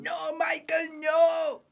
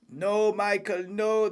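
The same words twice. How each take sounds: First: Much higher anguished cry on the team radio; Toto Wolff on radio. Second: Higher pleading protest, mildly voiced; a hint of a desperate team boss; Toto Wolff imitation. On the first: Retold or imitated. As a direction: wail it like a furious team boss. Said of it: "on team radio going". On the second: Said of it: "Toto Wolff right now".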